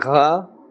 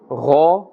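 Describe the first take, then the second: First: The syllable sounds thin and light. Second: The syllable sounds thick with a full mouth. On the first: The speaker calls it wrong. "We must not say gha or da" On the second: The speaker calls it right. "This is pronouncing with a full mouth"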